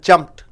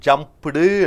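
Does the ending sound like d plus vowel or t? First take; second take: t; d plus vowel. First: The ending is a short t sound. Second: The ending is a d followed by a vowel. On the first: The speaker calls it right. "இவைகளுக்கு பின்னாடி ஈடி வந்து விட்டால் அந்த ஈடி டீயாக மாறிவிடும்" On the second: The speaker calls it wrong. "ஜம்ப்டு என்று சொல்றதில்லை"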